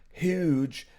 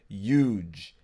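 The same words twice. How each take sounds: First: The word starts with an audible h sound. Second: The word starts without any h sound. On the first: This is the older way people said it. "How did the word huge" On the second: This is how people say it now. "when did the H become silent"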